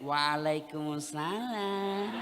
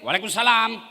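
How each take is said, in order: First: It is said in a soft, sultry, drawn-out voice. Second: It is said in a firm, businesslike voice.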